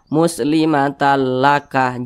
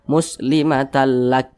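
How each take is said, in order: First: It ends with an extra a vowel. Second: It ends on a bare, breathy k. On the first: The speaker calls it wrong. "Jangan dibaca" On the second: The speaker calls it right. "tapi dibaca"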